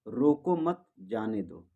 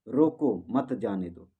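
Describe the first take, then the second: First: The pause comes after the second word. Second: The pause comes after the first word. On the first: Do not stop it; let it go. "पहले हम बोले थे रोको मत जाने दो" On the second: Stop it; do not let it go. "अब दूसरी बार हो गया रोको रोको मत जाने दो"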